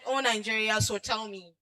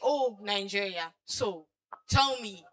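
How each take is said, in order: First: It runs on straight after 'so' without pausing. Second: There is a clear pause right after 'so'. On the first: "You said" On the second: "you put a, you know, a comma on so"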